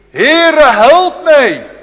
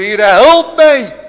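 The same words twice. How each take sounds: First: High loud pleading cry; desperate cry for help. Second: High, loud, slow drawn-out cry; sinking man's cry. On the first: Canaanite woman crying to the Lord, desperate loud cry. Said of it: "gebed van die Canaanese vrouw". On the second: Peter sinking in the waves, slow desperate cry. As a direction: Peter crying as he sinks. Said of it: "Toen heeft hij ook geroepen". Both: Acted.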